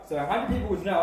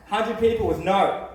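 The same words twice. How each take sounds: First: Said in the usual way. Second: Slower and louder, leaning on "no"; emphatic "no" at the end; stressed flat no. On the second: Shown as a demonstration. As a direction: land "Hundred people was no" firmly.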